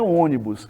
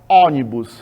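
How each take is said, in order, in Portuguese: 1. A primeira vogal é fechada e nasalizada. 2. A primeira vogal é aberta e não é nasal. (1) "É ônibus" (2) "Ninguém fala ônibus"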